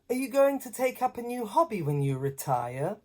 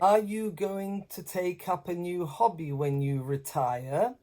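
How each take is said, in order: First: It flows smoothly, pitch moving up and down. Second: It sounds choppy and flat, word by word. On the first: It sounds like natural native speech. The speaker calls it right. "There's a lot more music" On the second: The speaker is reading it off a page. The speaker calls it wrong. "you sound a bit choppy"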